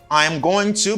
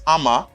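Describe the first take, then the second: First: Each word is said fully and separately. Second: The words blend into one reduced form.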